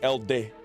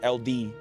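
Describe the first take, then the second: First: It is said as one smooth word. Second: It is said as two separate letter names. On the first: The speaker calls it right. "I imagine it's Elde" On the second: The speaker calls it wrong. "not L D"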